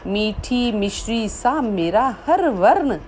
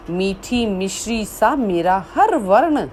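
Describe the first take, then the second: No difference in how they are said.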